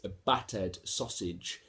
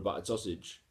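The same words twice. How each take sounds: First: The words are crisp with every consonant hit. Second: The words are mumbled with consonants blurred. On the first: The speaker calls it right. "you need to hit all them consonants" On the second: The speaker calls it wrong. "I might say certain things and, and mumble"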